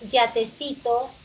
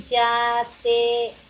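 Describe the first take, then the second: First: Said in the usual way. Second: Yatecito slowed, each syllable drawn out; slow repeat. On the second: Shown as a demonstration. Teacher to class, comparing sounds: slow, careful repeat. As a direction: draw yatecito out slowly for the class. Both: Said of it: "Ese es R y ese es R".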